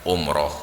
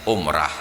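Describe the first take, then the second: First: The final syllable has an 'o' vowel. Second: The final syllable has an 'a' vowel. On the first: This is how people outside Aceh say it. "saudara-saudara kita di luar Aceh ... tetap menyebutnya" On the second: This is how people in Aceh say it. "kita di Aceh tetap dengan ciri khasnya"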